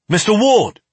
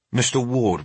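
First: MISTER WARD snapped high and loud; sharp, urgent raised command. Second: Said in the usual way. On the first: A narrator's reading. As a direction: snap the name to jolt him into action. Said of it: "The sharp snap of my name".

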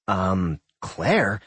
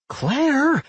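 First: Sputtering. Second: High, loud sharp call of her name; yelling. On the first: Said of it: "Doc sputtered". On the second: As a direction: shout her name in alarm. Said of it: "Doc yelled". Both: A narrator's reading.

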